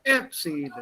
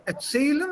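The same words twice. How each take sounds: First: Erzählen with ER punched at the front; wrong stress on ER in erzählen. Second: Erzählen with the second syllable ZÄH stressed. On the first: Teacher offers the wrong option, stress on ER in erzählen. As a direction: hit the prefix ER of erzählen. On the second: Teacher quizzes student, stress on ZÄH in Erzählen. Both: Shown as a demonstration. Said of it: "The stress is on the".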